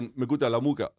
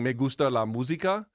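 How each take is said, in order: First: It is said fast with some sounds dropped. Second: It is said slowly with every sound pronounced. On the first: "It's fast and they drop letters" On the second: "instead of saying"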